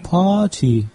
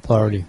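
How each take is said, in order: First: The middle consonant is a crisp t sound. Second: The middle consonant is a soft d-like sound. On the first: "как сказали бы в Англии" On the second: "«Т» меняется на «Д», она становится звонкой"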